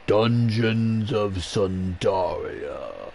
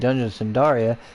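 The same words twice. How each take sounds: First: It is said in a grand, dramatic voice. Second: It is said in an ordinary, plain voice. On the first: The speaker calls it right. "Very fantasy-like" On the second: The speaker calls it wrong. "just saying"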